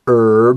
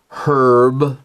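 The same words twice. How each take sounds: First: It is said with an American English pronunciation. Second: It is said with a British English pronunciation. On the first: "I said herb" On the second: "If I were from England, I would have said herb"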